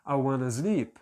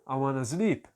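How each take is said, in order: No difference in how they are said.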